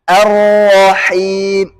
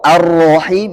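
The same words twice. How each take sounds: First: The vowel after r is open, not rounded. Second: The vowel after r sounds rounded, like o. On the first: The speaker calls it right. "Terangkatnya pangkal lidah, bukan bulatnya bibir" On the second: The speaker calls it wrong. "itu bukan fathah, O"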